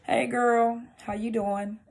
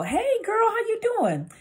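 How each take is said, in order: First: Restrained, cool inflection; unenthused greeting. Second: Very high-pitched, gushing greeting; sing-song high hello; bubbly friendly inflection. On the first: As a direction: greet her with little enthusiasm. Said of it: "depending on how you say it". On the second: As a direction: greet a girlfriend in a squealy high voice. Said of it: "the inflection in your voice". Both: Shown as a demonstration.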